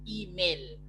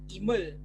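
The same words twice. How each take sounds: First: The e vowel is a clear e. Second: The e vowel is a weak schwa. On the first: The speaker calls it right. "awak sebut I taling, bukannya I, I pepet" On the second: The speaker calls it wrong. "Awak tak sebut email"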